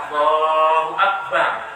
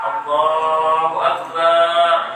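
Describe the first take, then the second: First: Neither vowel of akbar is drawn out. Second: The ba syllable of akbar is drawn out. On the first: The speaker calls it right. "langsung akbar, ba-nya tidak boleh panjang" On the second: The speaker calls it wrong. "ba-nya panjang"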